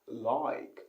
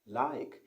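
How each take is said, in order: First: It has a Cockney accent with a stretched vowel. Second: It has a standard British accent with a short vowel. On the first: "in Cockney accent, they like to stretch the word" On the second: "in the normal British English, is like"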